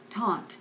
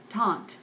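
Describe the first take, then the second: No difference in how they are said.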